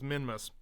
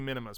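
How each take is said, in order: First: The name is said with two syllables. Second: The name is said with three syllables. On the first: The speaker calls it right. "but it's Minmus" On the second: The speaker calls it wrong. "it feels like it should be Minimus"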